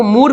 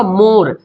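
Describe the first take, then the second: First: मूर with a long "oo" in place of "o"; wrong reading. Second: मोर with a round "o", not "oo". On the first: Teacher showing a possible misreading, मूर with long "oo". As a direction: say मूर with a stretched "oo". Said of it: "मूर भी तो पढ़ सकते हैं". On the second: Teacher giving the real word, मोर with rounded "o". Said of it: "वाव को गोल घुमा रहे". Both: Shown as a demonstration.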